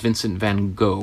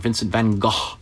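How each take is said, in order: First: The name is said the common English way. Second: The name is said the native way.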